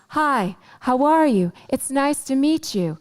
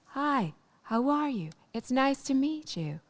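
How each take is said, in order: First: It is said at normal loudness. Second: It is said more quietly.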